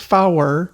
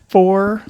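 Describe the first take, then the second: First: The word is said as two syllables. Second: The word is said as one syllable. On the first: The radio pronunciation, clearer over the air. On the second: The everyday pronunciation.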